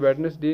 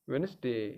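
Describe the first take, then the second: First: The first d is pronounced, with three syllables. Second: The first d is silent, with two syllables. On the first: The speaker calls it wrong. "ये वेडनेसडे नहीं है" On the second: The speaker calls it right. "Phonetics ... वेनसडे"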